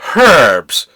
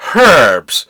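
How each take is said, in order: First: It is said with an h sound, British-style. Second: The same.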